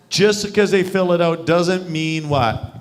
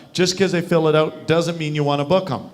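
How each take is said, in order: First: Slowed right down and louder, "what?" left for the group; slow prompting repeat. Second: Said in the usual way. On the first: Shown as a demonstration. Coach quizzes the group on the booking rule, slow prompting repeat. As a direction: drill "Just 'cause they fill it out" slowly, prompting an answer.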